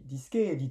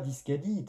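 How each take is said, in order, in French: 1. La syllabe 'di' n'est pas accentuée. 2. La syllabe 'di' porte l'accent. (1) "on dit disquedite, le i n'est pas fort" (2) "On ne dit pas disquedite"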